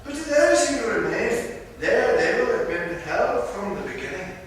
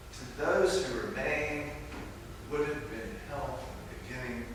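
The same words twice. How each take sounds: First: Higher, louder Scottish brogue leaning hard on "those"; bad Scottish accent, emphatic. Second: Softer repeat in a lighter Scottish lilt; hushed Scottish echo. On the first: Preacher voicing the Spirit's warning in a bad Scottish accent, emphatic. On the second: Acted. Preacher repeating the Spirit's line to let it sink in, quiet Scottish accent. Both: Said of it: "do a really bad Scottish accent".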